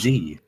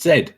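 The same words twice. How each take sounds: First: The letter is said as zee. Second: The letter is said as zed. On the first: This is the American way. The speaker calls it wrong. "Did I just say Z?" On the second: This is the non-American way. The speaker calls it right. "It's Z"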